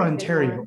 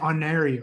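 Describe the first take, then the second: First: The T sound in the middle is pronounced. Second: The T sound in the middle is dropped.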